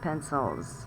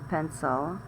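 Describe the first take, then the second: First: The word ends with a clear s sound. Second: The word ends without an s sound. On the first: The speaker calls it right. "c'est pencils" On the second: The speaker calls it wrong. "c'est pas pencil"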